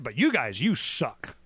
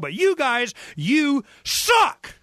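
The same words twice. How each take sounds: First: It is said quietly. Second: It is said loudly.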